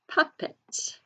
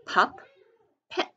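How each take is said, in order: First: Said in the usual way. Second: "pup, pet" as two separate beats; teacher breaking "pup, pet" apart for spelling; syllable by syllable. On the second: Shown as a demonstration. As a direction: sound out "pup, pet" with a long gap. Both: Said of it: "sound it out by syllables".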